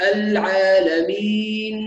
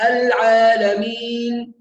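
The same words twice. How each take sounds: First: "العالمين" drawn out, ending on a clean n with lips apart; open-mouth nun. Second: "العالمين" drawn out, ending on a closed-lip m hum; nun closed to mim. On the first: Teacher corrects the stop, slow العالمين with a clear n. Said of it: "لابد من فتح الفم". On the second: Teacher shows a common error, slow العالمين ending like m. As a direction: shut the lips on the last n of "العالمين". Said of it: "فتخرج النون كأنها مشمة بصوت الميم". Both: Shown as a demonstration.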